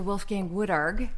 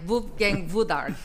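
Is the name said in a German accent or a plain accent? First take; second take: plain; German. First: The name is said in the speaker's normal accent. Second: The name is said in a put-on German accent.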